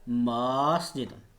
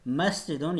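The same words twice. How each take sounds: First: The first vowel is stretched long. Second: The first vowel is kept short. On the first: The speaker calls it wrong. "अगर हम मीम को थोड़ा सा खींच दें" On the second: The speaker calls it right. "बल्कि इसको पढ़ेंगे मस्जिदों, यानी कि म"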